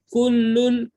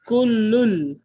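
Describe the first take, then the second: First: The word ends with a clear n sound. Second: The n merges into l without nasal sound. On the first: The speaker calls it wrong. "Dah tak bunyi dah kullun" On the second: The speaker calls it right. "dia masuk tanpa dengung"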